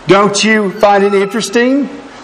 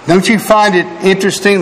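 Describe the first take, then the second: First: The phrase is said more slowly. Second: The phrase is said quickly. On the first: The speaker calls it right. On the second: The speaker calls it wrong.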